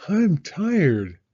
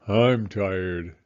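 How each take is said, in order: First: Higher, louder mock weary mom; a hint of a tired mother. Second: A hint of a tired father. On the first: Mama after the show, mock tired. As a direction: flop down, tired. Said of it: "said Mama". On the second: Papa after the show, lightly tired. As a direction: sigh it out, tired. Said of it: "said Papa".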